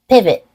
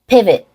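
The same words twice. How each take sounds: The two takes are said the same way.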